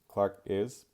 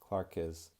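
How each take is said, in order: First: The K stops before a break at the vowel. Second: The K runs straight into the following vowel. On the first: The speaker calls it wrong. "Not Clark is" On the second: The speaker calls it right. "I'm going to connect that K sound since the next word begins with a vowel"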